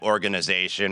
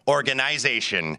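First: It is said in a plain American accent. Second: It is said imitating a Canadian accent.

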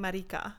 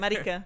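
First: The vowel is sounded like an A. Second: The vowel is sounded like an E. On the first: It is an offensive slur in Spanish. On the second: It is the speaker's own name.

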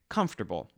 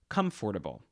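First: One or more sounds are left out. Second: Every written sound is pronounced in full. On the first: "I say comfortable ... My pronunciations contain elisions" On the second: "instead of comfortable"

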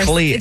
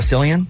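First: The name begins with a K sound. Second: The name begins with an S sound. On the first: The speaker calls it right. "so the C is a K" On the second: The speaker calls it wrong. "Is it not Cillian?"

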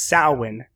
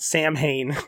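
First: It is said the traditional way, not as spelled. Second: It is said the way it is spelled. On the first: The speaker calls it right. "That's Samhain" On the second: The speaker calls it wrong. "not Samhain"

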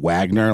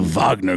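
First: The name is said in a soft, anglicized way. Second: The name is said in a harder, German-like way. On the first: It sounds like a harmless law firm. The speaker calls it wrong. "I've heard a lot of people mispronouncing it as such" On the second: It sounds more militaristic. The speaker calls it right. "has like a little bit more of a militaristic umami"

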